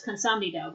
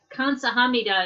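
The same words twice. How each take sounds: First: "kansamnida" with the HA syllable swallowed; "kansamnida" contracted, sa and ham merged; squished together. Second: "kansahamnida" with every syllable sounded, including HA; "kansahamnida" unmerged, the h clearly there; full pronunciation. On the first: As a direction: run Korean "kansamnida" together as heard in speech. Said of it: "is kansamnida when you hear it". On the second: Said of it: "it's like kansahamnida". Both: Shown as a demonstration.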